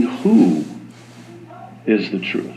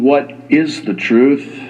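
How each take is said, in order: First: "Who" set apart, then a long pause; "Who" stressed, the rest falling away. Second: Slow question with "is" lifted; "is" stressed, unhurried. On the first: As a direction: land on "Who", pause, finish softly. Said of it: "perhaps we should be asking". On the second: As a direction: lean on the word "is" in a measured question. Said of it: "Instead of asking". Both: Shown as a demonstration.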